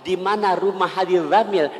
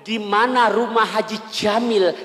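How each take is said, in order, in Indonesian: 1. Nama itu dimulai dengan bunyi dh yang lebih tipis. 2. Nama itu dimulai dengan bunyi j. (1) "kayak huruf dal yang ada titiknya, lebih tipis" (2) "Jim. Jim"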